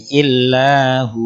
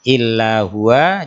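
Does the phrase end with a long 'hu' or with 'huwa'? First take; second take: long hu; huwa. First: The phrase ends with a long 'hu' sound. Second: The phrase ends with a short 'wa' syllable. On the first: "kalau berhenti, hu-nya dibaca panjang"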